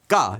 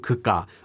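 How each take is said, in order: First: It is reduced to a single quick syllable. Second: It is shortened further to two syllables. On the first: "or even just 까 if it's said very quickly" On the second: "can then be shortened more to"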